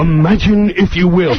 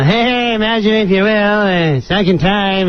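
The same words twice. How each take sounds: First: Measured, ominous TV host intro; full Rod Serling impression. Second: Higher, casual throwaway read; offhand, noncommittal run-through; half-hearted rehearsal. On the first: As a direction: snap into a deliberate narrator voice. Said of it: "he knew to save it for the live". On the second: Retold or imitated. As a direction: imitate an actor not bothering with the impression. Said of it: "you don't even sound like him".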